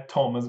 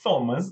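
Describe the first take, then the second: First: It begins with a plain t sound. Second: It begins with a th sound, not t. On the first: The speaker calls it right. "É Thomas mesmo, som de T" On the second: The speaker calls it wrong. "Thomas não vai ser Thomas"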